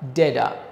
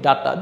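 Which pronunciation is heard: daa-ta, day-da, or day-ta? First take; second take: day-da; daa-ta. First: The first vowel is 'ay' with a soft d-like t. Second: The first vowel is a plain 'a' sound. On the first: "আমেরিকানরা ঠ এর জায়গায় ড দিয়ে বলে" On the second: "এটা আমরা কিন্তু বলি ডাটা"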